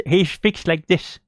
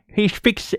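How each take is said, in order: First: Slowed-down mock of James. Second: Said in the usual way. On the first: Shown as a demonstration. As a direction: drag the words out the way James talks.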